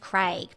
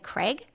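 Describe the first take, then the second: First: The name is said with a non-American accent. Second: The name is said with an American accent. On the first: "you're like his name's Craig" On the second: "but they say Craig"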